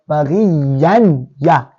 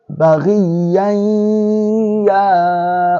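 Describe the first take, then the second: First: The n is sounded clearly before the ya. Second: The n merges smoothly into the ya. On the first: The speaker calls it wrong. "That will be izhar. We are not doing izhar" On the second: The speaker calls it right. "because Ya is under idgham, it will be infused"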